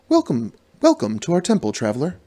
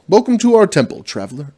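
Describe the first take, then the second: First: It is said in a put-on priestess voice. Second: It is said in his natural voice.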